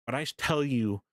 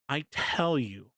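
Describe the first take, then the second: First: Said in the usual way. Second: "I tell you" drawn out slowly, each word weighted; slow emphatic insistence. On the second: Real, not acted. To his viewers, vouching for the footsteps, slow and emphatic.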